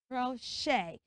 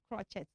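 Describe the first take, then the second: First: The CH is not said as a ch sound. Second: The CH is said as a ch sound. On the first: The speaker calls it right. "the C H is not sounding ch" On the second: The speaker calls it wrong. "that word is not crochet"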